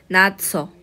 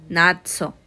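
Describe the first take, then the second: Both takes have the same delivery.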